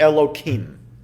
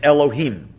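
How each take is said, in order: First: The name is said with a slightly changed sound. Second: The name is said exactly as written. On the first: It is used outside prayer or Torah reading. "alter it slightly" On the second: It is used in prayer or Torah reading. "pronounced as they are written"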